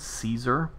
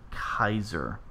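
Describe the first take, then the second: First: The word begins with an S sound. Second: The word begins with a K sound. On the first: This is the English pronunciation. "we say Caesar in English as in, you know, with a, a, a an S sound" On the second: This is the Latin pronunciation. "the more accurate um, Latin pronunciation would be with a K sound"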